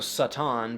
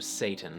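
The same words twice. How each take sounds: First: The first vowel is an open ah sound. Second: The first vowel is a long a sound. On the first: "the sound ah" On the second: "which became a"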